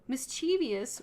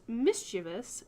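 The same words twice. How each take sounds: First: The word is said with four syllables. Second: The word is said with three syllables. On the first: The speaker calls it wrong. "with four syllables is not how you're supposed to pronounce this" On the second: The speaker calls it right. "It's pronounced mischievous with three syllables"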